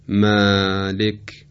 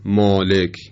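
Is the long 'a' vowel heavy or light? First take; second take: light; heavy. First: The long vowel is light and thin. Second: The long vowel is heavy and thick. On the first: The speaker calls it right. "وقتی که با الف همراه میشه بدین ترتیب تلفظ میشه" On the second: The speaker calls it wrong. "و نه مالک"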